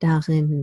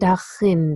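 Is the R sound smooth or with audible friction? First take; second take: smooth; friction. First: The R is soft and smooth, without friction. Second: The R is produced with audible friction noise.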